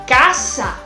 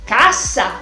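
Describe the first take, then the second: First: The S sound is strong and forceful. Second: The S sound is strong and forceful.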